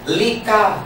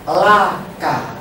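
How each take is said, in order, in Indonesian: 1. Vokal pertama berbunyi 'i'. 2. Vokal pertama berbunyi 'a'. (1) "jangan berbunyi lika" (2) "tetapi laka"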